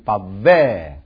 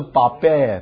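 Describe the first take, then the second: First: The middle consonant is a v sound. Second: The middle consonant is a b sound. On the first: The speaker calls it right. "它是v 的音" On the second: The speaker calls it wrong. "不是bavar， bavar 是b 的音"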